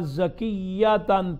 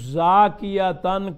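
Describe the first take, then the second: First: The first vowel is short; the y is doubled. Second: The first vowel is long; the y is single. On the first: "तख़फ़ीफ की जगह तशदीद, मद की जगह कसर" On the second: "मद्दा से और या की तख़फ़ीफ से"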